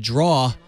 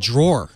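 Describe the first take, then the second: First: The word ends without an r sound. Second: The word ends with an r sound. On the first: The speaker calls it wrong. "I said every word wrong because I grew up in Jersey" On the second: The speaker calls it right. "was actually a drawer"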